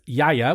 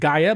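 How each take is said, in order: First: The name begins with a Y sound. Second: The name begins with a hard G sound. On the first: The speaker calls it right. "but the producer is Yaya" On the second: The speaker calls it wrong. "It looks like Gaia"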